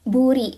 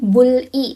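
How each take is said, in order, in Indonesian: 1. Konsonan di tengah terdengar seperti r. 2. Konsonan di tengah terdengar seperti l. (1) "R ketemu sama I jadinya buri" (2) "bukan bul-i"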